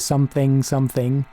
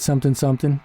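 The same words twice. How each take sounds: First: The final g sounds are fully pronounced. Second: The final g sounds are dropped. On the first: The speaker calls it wrong. "you don't say something, something" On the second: The speaker calls it right. "drop those G's"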